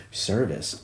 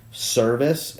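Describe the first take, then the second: First: Said in the usual way. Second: "service" higher, rising at the end; question tune. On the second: Shown as a demonstration. Podcaster reading out his note with a question mark, rising "service". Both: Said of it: "question mark".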